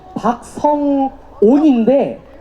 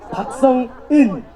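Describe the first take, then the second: First: The last syllable is pronounced "on". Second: The last syllable is pronounced "eun". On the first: The speaker calls it right. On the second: The speaker calls it wrong. "자꾸 박성원, 박성은, 박성웅, 이런 식으로 다들 발음을 하시거든요"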